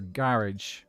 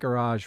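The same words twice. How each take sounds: First: It is said with a British pronunciation. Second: It is said with an American pronunciation.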